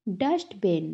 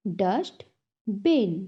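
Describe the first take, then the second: First: Said in the usual way. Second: "Dustbin" split as dust, bin; syllable by syllable. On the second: Shown as a demonstration. Teacher has class repeat, "Dustbin" broken in two. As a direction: clear pause between the halves of "Dustbin". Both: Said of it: "टू syllables में divide".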